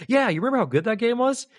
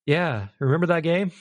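First: High, upbeat mock nostalgia; fond reminiscing. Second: Subdued, lightly acted disappointment; let-down reminiscing. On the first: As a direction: recall it fondly with a lifted, keen pitch. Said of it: "we could think back and be like". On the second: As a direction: look back with little enthusiasm, near usual pitch. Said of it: "Now I'm gonna look back and like".

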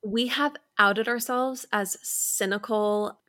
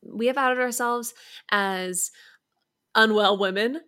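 First: Said in the usual way. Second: Hushed, unvoiced confession of being unwell; mock confessional whisper. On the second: Shown as a demonstration. Host whispers a fake confession to the listeners, whispering. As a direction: whisper it like a shameful secret.

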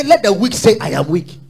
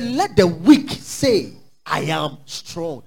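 First: "Let the weak say, 'I am weak'" ending in a rising, pleading tune; "I am weak" lifted up like a complaint; whiny weak voice. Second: "Let the weak say, 'I am strong'" said slowly, falling, low and firm; drawn-out "Let the weak say, 'I am strong'" with a firm fall; slow low declaration. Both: Shown as a demonstration. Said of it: "He didn't say".

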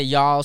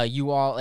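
First: "y'all" as one syllable; contracted y'all. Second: "you all" as two separate words; uncontracted you all. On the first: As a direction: run you and all together into "y'all". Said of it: "some people say y'all". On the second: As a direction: keep you and all apart in "you all". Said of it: "some people say". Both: Shown as a demonstration.

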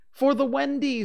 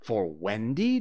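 First: Put-on very high, loud boyish answer; high, emphatic child's voice; eager reply. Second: Appalled, questioning repeat; aghast. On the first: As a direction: pipe up loudly with the obvious reason. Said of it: "said Curly". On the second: Acted. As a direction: echo it back in disbelief.

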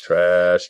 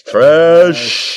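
First: Said in the usual way. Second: Loud, high dismissive jeer; scornful loud jeer. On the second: Acted. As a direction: shout the word trash like booing. Trash-talking the Cowboys.

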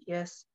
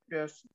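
First: Tiny quiet yes, almost swallowed; small weak yes. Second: Tiny, quiet, hollow yes; a barely-there mock yes; small weak yes. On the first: Retold or imitated. Fighter answering her coach, quiet and fragile. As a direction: answer softly as if holding back tears. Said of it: "I'm like". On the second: Fighter answering her coach with a small quiet yes. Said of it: "I was like".

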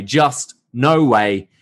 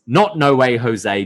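First: "No Way" drawn out slowly and deliberately; slow stress on "No Way". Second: "not" punched, "No Way Jose" plain; stress on not. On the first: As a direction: slowly spell out "just No Way". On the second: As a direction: hit "not" to correct the name. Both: Shown as a demonstration.

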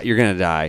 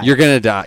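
First: Said in the usual way. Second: Gonna punched high and loud; You're gonna die with gonna leaned on; stress on gonna. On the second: Acted. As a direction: hit the word gonna hard, announcement-like. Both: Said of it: "We all die".

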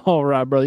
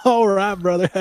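First: Put-on southern accent. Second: Reprise the southern elf greeting "all right, brother"; southern "all right, brother", lifted and friendly; southern accent. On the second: Acted. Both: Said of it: "has a southern accent".

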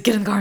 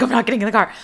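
First: Louder, higher demand; mock yelled order. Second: Louder, higher, pushing back; mock yelled refusal. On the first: A boy yelling from his truck for her to get in, mock yelled order. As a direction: bark it back at her. Argument escalates in street. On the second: A girl yelling back from the street at him, mock shouted refusal.

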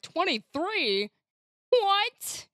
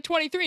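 First: Drawn-out number, then high rising question; mock bewilderment. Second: Said in the usual way. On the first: Player mimics her slow-counting friend, mock bewildered. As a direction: imitate someone baffled by a sum. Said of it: "and you're like". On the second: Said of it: "I was like".

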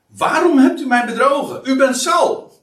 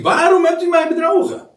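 First: High, loud accusing cry; a woman shouting at the disguised king; woman's loud cry. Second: Much higher, louder and faster shriek; a medium shrieking at the disguised king; shocked scream. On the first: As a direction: cry out, shocked and betrayed. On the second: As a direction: scream it out in sudden alarm. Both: Acted. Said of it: "ze schreeuwde met luide stem".

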